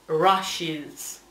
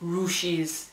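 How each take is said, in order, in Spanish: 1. La primera vocal suena como una 'a'. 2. La primera vocal suena como una 'u'. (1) "se dice" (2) "No se dice"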